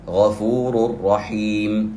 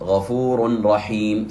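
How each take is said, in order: First: The n sound merges fully into the r. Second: The n sound is pronounced clearly before the r. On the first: The speaker calls it right. "ما هي طريقة القراءة الصحيحة؟ نقول إن الله غفور رحيم" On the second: The speaker calls it wrong. "ولا نقرأ غفور رحيم، ثقيلة على اللسان وهذا خطأ"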